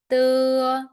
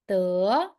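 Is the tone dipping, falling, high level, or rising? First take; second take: high level; rising. First: The pitch stays high and level. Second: The pitch rises from middle to high.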